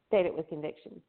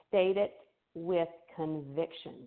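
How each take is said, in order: First: It is said weakly, without much force. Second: It is said firmly, with strong force. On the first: The speaker calls it wrong. "I don't say" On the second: The speaker calls it right. "you notice how I say that"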